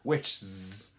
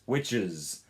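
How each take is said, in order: First: The ending has no vowel before the final sound. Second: The ending has a short vowel before the final sound. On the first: The speaker calls it wrong. "it's not witches" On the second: The speaker calls it right. "a Uz sound at the end"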